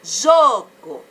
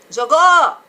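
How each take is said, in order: First: JO of Jogo loud and long, go dropped; stress on first syllable. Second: Jogou with a very loud, long GÔ; wrongly end-stressed Jogou, loud; stress on last syllable. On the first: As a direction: boom out the JO in Jogo. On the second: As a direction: blast the final syllable of Jogou. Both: Shown as a demonstration. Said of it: "sílaba que eu falo mais alto".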